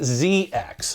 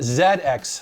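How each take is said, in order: First: The letters are said with an American accent. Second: The letters are said with a British accent. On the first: This is how Americans would say the name. The speaker calls it wrong. "not Z X" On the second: This is how people from Britain say the name. The speaker calls it right. "they do pronounce it Z X"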